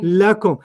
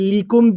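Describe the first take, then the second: First: The first vowel is an 'a' sound. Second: The first vowel is an 'i' sound. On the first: The speaker calls it right. "When it comes with a pronoun, it becomes la" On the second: The speaker calls it wrong. "You don't say likum"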